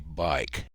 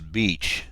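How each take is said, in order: First: The name is said with an eye vowel, like bike. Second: The name is said with an ee vowel, like beach. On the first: This is how the flight software says it. "So I'm going to try to learn to say bike" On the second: This is how the speaker has always said it. "I've always pronounced this beach"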